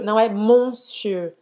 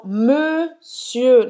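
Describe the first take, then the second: First: Monsieur said as mõsø, with a nasal Portuguese-style first syllable; wrong monsieur. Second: Monsieur with a rounded first syllable like mø, said slowly; correct monsieur. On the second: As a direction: round the lips on mon of monsieur. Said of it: "Presta atenção". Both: Shown as a demonstration.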